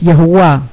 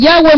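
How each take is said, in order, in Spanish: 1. El nombre se dice como Yahuwah. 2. El nombre se dice como Yahweh. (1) "la pronunciación que realmente debemos tener, que es Yahuwah" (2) "aún no me acostumbro a la pronunciación que realmente debemos tener"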